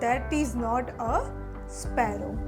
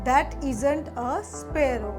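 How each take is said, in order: First: 'Is not' is said as two full words. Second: 'Is not' is contracted into one syllable.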